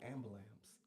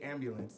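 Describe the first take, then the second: First: It is said the LA neighborhood way. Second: It is said with standard pronunciation.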